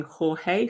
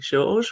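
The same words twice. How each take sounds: First: Jorge said the Spanish way; Spanish pronunciation. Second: Jorge said the Portuguese way; Portuguese pronunciation. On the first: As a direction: say "Jorge" as Spanish "hor-HAY". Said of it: "the Spanish way of pronouncing his name". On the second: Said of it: "and he's Portuguese, so something like". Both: Shown as a demonstration.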